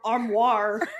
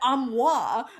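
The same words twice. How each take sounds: First: It has an American accent with a hard R. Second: It has a non-American accent with a soft R. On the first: "with my trashy American accent, ... with like the kind of a harder R" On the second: "the audiobook narrator said it armoire"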